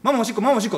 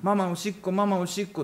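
First: It is said very fast. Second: It is said slowly, crying.

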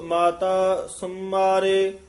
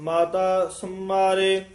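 No difference in how they are said.

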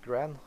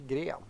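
First: The word is said with an English pronunciation. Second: The word is said with a Swedish pronunciation. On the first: "They call it Gren" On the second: "In Sweden we say Gren"

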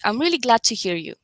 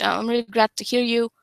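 First: The voice moves up and down brightly. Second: The voice stays flat and monotone. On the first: The speaker sounds convincing. The speaker calls it right. "Second version was more convincing" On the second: The speaker sounds unconvincing. The speaker calls it wrong. "with a monotone voice, you are not convincing"

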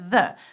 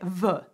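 First: The word begins with an English th sound. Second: The word begins with a z-like sound. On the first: This is the English sound French speakers cannot hear. "because we can't hear the" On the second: This is how French speakers tend to say it. "So we tend to say the"

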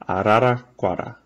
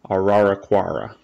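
First: The R sounds are quick tongue flips. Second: The R sounds are not tongue flips. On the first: The speaker calls it right. "the R, it's like a little flip of the tongue" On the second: The speaker calls it wrong. "which is not correct"

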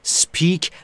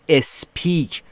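First: The word starts directly with the s. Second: A vowel sound is added before the s. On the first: The speaker calls it right. "بین اس و پی صدایی وجود نداره و ابتداش هم صدایی وجود نداره" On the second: The speaker calls it wrong. "نود و نه درصد ایرانی ها میگن اسپیک. اشتباه"

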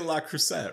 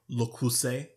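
First: The first word is said as 'la'. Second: The first word is said as 'le'. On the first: The speaker calls it wrong. "I always say La Creuset, right? But I know that's wrong" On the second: The speaker calls it right. "I want to say it right"

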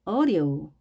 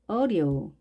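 No difference in how they are said.

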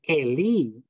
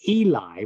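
First: It is said the Hebrew way. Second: It is said the English way, as spelled. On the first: The speaker calls it right. "but it's really Eli" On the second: The speaker calls it wrong. "that's how we say that when we E-L-I, because that's how it's spelled"

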